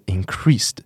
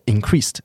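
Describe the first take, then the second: First: It is said with more force. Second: It is said lightly with a t-like sound. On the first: The speaker calls it right. "应该是要偏的用力一点" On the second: The speaker calls it wrong. "我会容易不小心念成是t"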